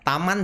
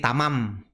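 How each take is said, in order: First: The word ends with an n sound. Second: The word ends with an m sound. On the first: This is the intended word. The speaker calls it right. "dia mau ngomong taman" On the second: A child with reading difficulty garbles the word. The speaker calls it wrong. "taman jadi tamam"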